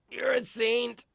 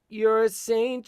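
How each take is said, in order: First: The voice is heavily distorted. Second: The voice is compressed but clear. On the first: The speaker calls it wrong. "That's too just too much distortion" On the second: The speaker calls it right. "we want that compression"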